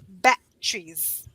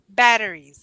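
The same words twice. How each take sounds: First: The word is said with an imitated regional pronunciation. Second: The word is said with an ordinary everyday pronunciation. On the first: Someone else pronounces it this way. "the way that she pronounced it was batteries" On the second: This is how the speaker pronounces it. "And I would say"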